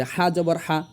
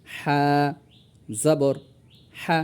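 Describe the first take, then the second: First: "হা জবর হা" run together without gaps; letter, vowel name and sound in one breath. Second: "হা, জবর হা" in three separate pieces; drawn-out letter name, then each part on its own; separated. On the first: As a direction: say "হা জবর হা" as one joined phrase. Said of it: "যদি আপনি একসঙ্গে বলেন". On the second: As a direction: pause clearly after "হা" and after "জবর". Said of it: "এজন্য ছাড়া ছাড়াভাবে আমি". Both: Shown as a demonstration.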